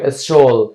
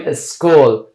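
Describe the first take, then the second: First: "اسشول" said with a sh sound in place of k; wrong SH pronunciation. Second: "اسکول" said with a hard k after the s; correct K pronunciation. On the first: Teacher shows learners the mistake to avoid, "اسشول" with wrong sh. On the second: Teacher gives learners the correct form, "اسکول" with a clear k. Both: Shown as a demonstration.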